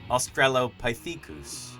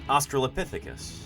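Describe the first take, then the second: First: It is said with a French pronunciation. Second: It is said with an American pronunciation. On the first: "The French pronounce it" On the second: "in the U S we would pronounce this creature"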